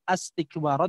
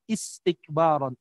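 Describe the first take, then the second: First: The word begins with an a vowel. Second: The word begins with an i vowel. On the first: The speaker calls it wrong. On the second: The speaker calls it right. "tapi istikbaron. Udah pasti is"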